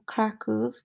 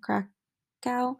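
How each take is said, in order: First: It is said the Polish way. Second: It is said the American English way.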